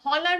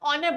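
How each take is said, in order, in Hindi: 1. शब्द की शुरुआत h की आवाज़ से होती है। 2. शब्द की शुरुआत स्वर की आवाज़ से होती है। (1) "हम हॉनर नहीं बोलते" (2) "हम ऑनर बोलते हैं"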